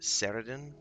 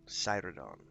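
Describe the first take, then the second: First: The name is said as Ceridon. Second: The name is said as Cyrodon. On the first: This is how the speaker used to say it. The speaker calls it wrong. "I always pronounce it Ceridon" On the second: This is how it is said in the game. The speaker calls it right. "Cyrodon. My bad"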